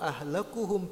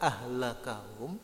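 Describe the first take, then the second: First: The vowel before hum is a u sound. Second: The vowel before hum is an a sound. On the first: "birraf'i dengan harokat dhamma" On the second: "dengan nasab harokat harokat dom uh, fathah"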